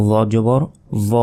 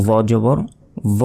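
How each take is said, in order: Both takes have the same delivery.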